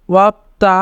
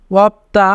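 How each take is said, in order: Both takes have the same delivery.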